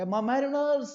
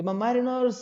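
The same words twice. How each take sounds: First: "My mariners" raised high, then a pause; pause after mariners. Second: "My mariners" lifted high with a pause after; "My mariners" called out, then a pause. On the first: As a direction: say "My mariners" high and let it hang before going on. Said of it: "एक छोटा सा pause हमें देना पड़ता है". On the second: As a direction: call "My mariners" up high and stop briefly. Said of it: "रुकना पड़ता है कि". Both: Shown as a demonstration.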